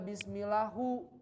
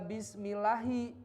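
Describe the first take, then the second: First: The word ends with a u vowel. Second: The word ends with an i vowel. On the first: The speaker calls it wrong. "nggak dibaca bismillahu" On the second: The speaker calls it right. "kenapa dibaca bismillahi"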